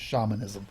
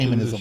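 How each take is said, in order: First: The word is said with a British pronunciation. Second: The word is said with an American pronunciation. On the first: The speaker calls it right. "If you're using, you know, proper English, it's" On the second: The speaker calls it wrong. "if you pronounce it American, it's"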